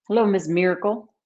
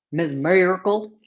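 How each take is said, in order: First: "Hello, Ms. Miracle" with a light Texan twang; Texas drawl. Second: "Ms. Miracle" with a light Texan twang and rising end; Texas drawl. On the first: Greeting a viewer the Texas way, light Texan twang. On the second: Repeating a viewer's name in Texan twang. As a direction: say "Ms. Miracle" again, drawn out the Texan way. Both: Shown as a demonstration. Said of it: "That's how they say it in Texas".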